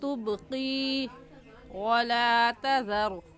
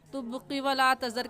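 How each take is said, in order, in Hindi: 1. q के बाद का स्वर खींचा जाता है। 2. q के बाद का स्वर छोटा है। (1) "क़ौफ़ याज़िक़ी को एक अलिफ के बराबर खींचेंगे" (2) "कहना गलत है"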